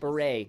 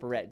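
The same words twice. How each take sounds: First: The final T is silent. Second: The final T is pronounced. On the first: The speaker calls it right. "Silent T" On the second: The speaker calls it wrong. "not beret"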